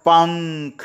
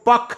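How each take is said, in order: First: The first vowel is nasalized through the nose. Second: The first vowel is plain, without nasal sound. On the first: The speaker calls it right. "नाक में बोला जाता है" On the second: The speaker calls it wrong. "अगर नाक का सहारा नहीं लेंगे तो बोलेंगे इसको पख"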